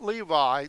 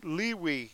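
First: The name is said in its English form. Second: The name is said in its Hebrew form. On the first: The speaker calls it wrong. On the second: The speaker calls it right.

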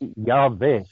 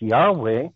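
First: The middle consonant is a V sound. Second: The middle consonant is a W sound. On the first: This is the form Germanic speakers find easier. "than it would be to say Yahweh" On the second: This is the form English speakers find easier. "for the English people, it's easier to pronounce Yahweh"

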